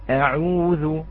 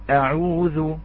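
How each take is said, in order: The two takes are said the same way.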